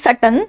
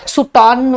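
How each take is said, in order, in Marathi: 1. पहिला स्वर 'uh' आहे, दुसरा हलका आहे. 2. पहिला स्वर 'oo' आहे, दुसरा 'aw'. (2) "सुटॉन वगैरे असं म्हणायचं नाही"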